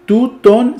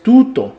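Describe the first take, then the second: First: Tuton said slowly, rising at the end; wrong form. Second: Tuto, plain and settled; correct form. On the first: Teacher rejecting the wrong form, slow rising tuton. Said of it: "no es tuton". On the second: Teacher giving the correct form, plain tuto. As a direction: tuto stated as the right answer. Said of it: "sino que es tuto". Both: Shown as a demonstration.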